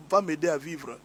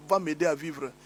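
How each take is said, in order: Both takes have the same delivery.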